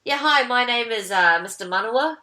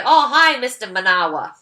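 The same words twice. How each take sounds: First: "Manawa" with light, unstretched middle syllable; correct name pronunciation. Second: "Manawa" with stressed NAH in the middle; mangled name pronunciation. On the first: Character introduces himself as "Manawa", middle syllable kept light, correct pronunciation. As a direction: say "Manawa" evenly, middle vowel short. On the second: Others greet him, "Manawa" as muh-NAH-wuh, mangled pronunciation. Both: Retold or imitated. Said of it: "How did you get Manawa out of Manawa?".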